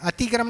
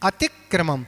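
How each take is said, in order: First: The opening 'atik' part carries no stress. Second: The opening 'atik' part carries the stress. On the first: The speaker calls it wrong. "अतिक्रम नहीं" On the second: The speaker calls it right. "Atiq स्वराघात करें"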